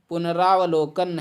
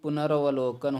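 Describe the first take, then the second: First: The 'ra' syllable has a long 'aa' vowel. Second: The 'ra' syllable has a short 'a' vowel. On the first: The speaker calls it wrong. "पुनरावलोकन नहीं" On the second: The speaker calls it right. "बल्कि पुनरवलोकन होता है"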